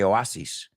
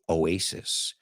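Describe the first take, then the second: First: The word is pronounced with Spanish sounds. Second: The word is pronounced with English sounds. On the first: This is how Spanish speakers say it. "You say oasis" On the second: This is how English speakers say it. "We say oasis"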